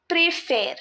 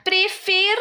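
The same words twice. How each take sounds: First: Préfère with a closed "ay" in the second syllable; acute accent sound. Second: Préfère with an open "eh" in the last syllable; grave accent sound. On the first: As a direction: say préfère with é in place of è. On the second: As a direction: say préfère high, ending on open è. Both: Shown as a demonstration. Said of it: "you see the change of sound".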